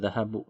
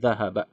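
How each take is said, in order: First: The word ends with an 'u' vowel. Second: The word ends with an 'a' vowel. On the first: The speaker calls it wrong. "Jadi enggak dibaca zahabu" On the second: The speaker calls it right. "tapi zahaba"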